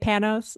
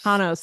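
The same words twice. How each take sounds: First: The name is said with an American pronunciation. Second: The name is said with a Greek pronunciation. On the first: "Americans say Panos" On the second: "that is the correct Greek way to say it"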